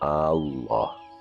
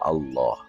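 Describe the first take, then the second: First: The first vowel of Allah is drawn out long. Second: The first vowel of Allah is short. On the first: The speaker calls it wrong. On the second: The speaker calls it right.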